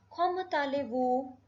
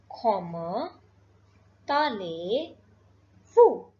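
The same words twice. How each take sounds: First: Said in the usual way. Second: "Comment allez-vous" slow, broken into separate words; drawn out "Comment ... allez ... vous", long pauses between; word-by-word demonstration. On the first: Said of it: "I'll repeat". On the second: Shown as a demonstration. Teacher introducing the formal French greeting, word-by-word demonstration. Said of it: "we will say".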